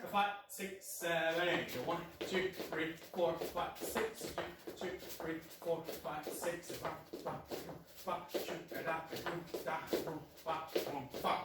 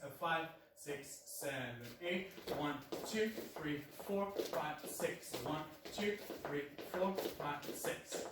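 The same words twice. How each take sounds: First: Faster count. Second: Slow, steady dance count. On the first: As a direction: pick up the tempo as you count. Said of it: "A little bit faster". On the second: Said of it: "first slow". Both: Shown as a demonstration.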